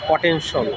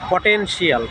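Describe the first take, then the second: First: The ending is said as one syllable, shul. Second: The ending is said as two syllables, shee-ul. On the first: The speaker calls it right. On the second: The speaker calls it wrong.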